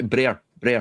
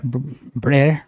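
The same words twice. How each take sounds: First: Brer with a rolled Scottish r; brer, the way Scots say brother. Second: A learner's attempt at brer; trying out brer. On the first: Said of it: "We, we say". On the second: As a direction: brer said by a learner, r not rolled. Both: Shown as a demonstration.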